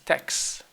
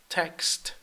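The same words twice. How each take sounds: First: The final T sound is dropped. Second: The final T sound is clearly pronounced.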